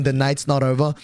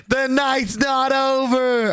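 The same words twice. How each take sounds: First: Said in the usual way. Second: High, slow, drawn-out mock villain line; slow dramatic catchphrase. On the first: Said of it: "people been saying online". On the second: Friend taunting as he drives off, high and slow. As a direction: stretch it out like a taunt. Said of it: "if you've seen people been saying online".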